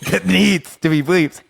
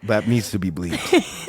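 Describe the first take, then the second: First: Repeated through laughter, higher; laughing it out again. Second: Said in the usual way. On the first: Shown as a demonstration. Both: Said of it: "we gotta bleep that out".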